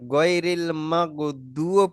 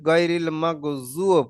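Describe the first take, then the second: First: The middle consonant sounds like a 'd'. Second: The middle consonant sounds like a 'z'. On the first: "একবার দুও পড়া যায়" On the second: "একবার জুও পড়া যায়"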